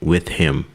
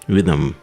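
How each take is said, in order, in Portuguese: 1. O som do h em 'him' é claramente pronunciado. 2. O h é omitido e ligado a 'with'. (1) "Fica até estranho, né? Você falar assim" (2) "Ele corta o H, pega o som do with e liga com o I M"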